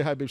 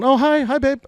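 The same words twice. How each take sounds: First: Said in the usual way. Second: Much higher and louder, sweet mock mom greeting; imitating mom. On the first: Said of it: "She didn't say". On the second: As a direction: play mom cheerfully picking up the phone. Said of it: "My mom answers the phone".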